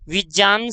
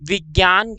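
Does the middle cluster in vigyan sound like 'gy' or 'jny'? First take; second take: jny; gy. First: The middle cluster sounds like 'jny'. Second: The middle cluster sounds like 'gy'. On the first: The speaker calls it right. "विज्ञान शुद्ध है" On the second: The speaker calls it wrong. "विज्ञान गलत है"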